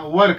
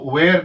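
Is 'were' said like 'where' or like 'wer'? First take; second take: like wer; like where. First: The word sounds like 'wer', with a short vowel. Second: The word sounds like 'where', with a long vowel. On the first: The speaker calls it right. "वर कहना" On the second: The speaker calls it wrong. "हमें इसको वेयर नहीं कहना"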